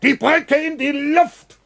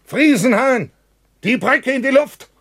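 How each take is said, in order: First: Shouted even higher, each word drawn out; slow shout. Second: Loud, high shout across the tunnel. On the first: Bratke repeats the order to Friesenhahn, slower and higher shout. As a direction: stretch the yell out, desperate. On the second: Bratke calls to Friesenhahn from the entrance, shouting. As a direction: yell the order to blow the bridge. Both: Acted. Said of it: "und ruft".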